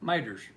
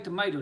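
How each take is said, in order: First: It is said in a clipped Southern form. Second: It is said in full standard form.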